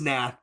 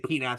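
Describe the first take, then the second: First: The word starts with an N sound, no P. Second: The word starts with a sounded P syllable. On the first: This is the actual pronunciation. "it is Nath" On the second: This is a habit that helps with the spelling. "but I always say Penath"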